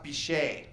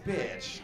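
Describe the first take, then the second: First: The name is said in a French-sounding way. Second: The name is said as a plain English word. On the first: The name is claimed to be a respectable French name. The speaker calls it wrong. "it's French, it's pronounced Bichet" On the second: The name is really the rude English word. The speaker calls it right. "No, it's bitch"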